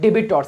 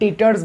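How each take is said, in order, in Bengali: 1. b সাউন্ডটি স্পষ্টভাবে উচ্চারণ করা হয়। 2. b সাউন্ডটি নীরব থাকে। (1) "অনেকে এটাকে ভুল ভাল উচ্চারণ করে" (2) "বিটাকে আমরা উচ্চারণ করব না"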